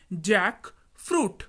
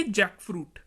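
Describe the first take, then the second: First: jackfruit drawn out as two parts, pause after जैक; slow, split word. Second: Said in the usual way. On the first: Shown as a demonstration. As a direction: model jackfruit slowly, half by half. Teacher repeats word split for learners.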